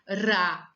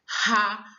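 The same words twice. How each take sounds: First: The r is a light tapped sound. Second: The r is a strong guttural sound. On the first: "Quando for o som de ra, ... só um R" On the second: "quando for o som de ra, ... dois R's"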